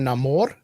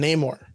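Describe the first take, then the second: First: The name is said in a Spanish style. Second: The name is said in an English style.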